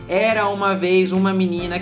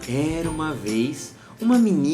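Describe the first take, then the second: First: It is read in a flat, uninteresting way. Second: It is read in a mysterious, varied way. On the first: The story does not draw the listener in. The speaker calls it wrong. "lê assim, ó ... Não, não traz interesse" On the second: The story builds suspense and interest. The speaker calls it right. "Agora se você pega uma história e fala assim"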